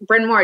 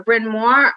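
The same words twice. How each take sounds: First: Bryn Mawr with a broad Long Island vowel, slow; Long Island accent. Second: Said in the usual way. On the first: Shown as a demonstration. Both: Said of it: "Did you hear my Long Island accent?".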